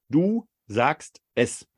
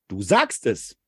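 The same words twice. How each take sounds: First: It is said flat, without emphasis. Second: It is said as a firm confirmation.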